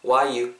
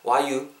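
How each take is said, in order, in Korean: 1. 빠르게 말할 때는 'are'가 생략돼요. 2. 빠르게 말할 때는 'are'가 생략돼요.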